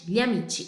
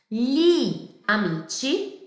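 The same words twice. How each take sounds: First: It is said fast with the i barely heard. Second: It is said slowly with every vowel clear.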